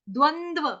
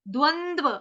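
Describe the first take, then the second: No difference in how they are said.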